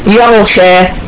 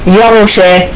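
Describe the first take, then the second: Both takes have the same delivery.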